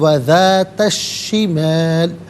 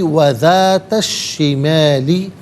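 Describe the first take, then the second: First: The word ends on the 'l' without a vowel. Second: The word ends with a final 'i' vowel. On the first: The reader stops at this word. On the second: The reading continues without stopping.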